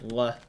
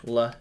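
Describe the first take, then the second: First: "l" without the tongue tip, like "wuh"; old improper L. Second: "l" with the tongue at the front; proper L. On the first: Player showing their former sound, "l" like "wuh". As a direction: say "l" as a w-like glide. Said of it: "instead of a l". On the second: Player showing the learned sound, "l" as clear "luh". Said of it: "pronounce my L's properly now". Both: Shown as a demonstration.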